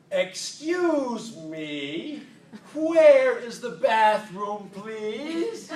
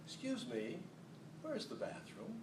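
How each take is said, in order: First: Very slow, much louder and higher bellow; loud slow shout. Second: Soft, polite little request; polite quiet ask. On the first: Mother shouting slowly at a foreigner for the bathroom. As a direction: yell it slowly as if volume fixes language. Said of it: "She'd take a deep breath and she'd say". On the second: Mother asking politely and quietly for the bathroom. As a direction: ask gently like a shy tourist. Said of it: "She would smile and say". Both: Retold or imitated.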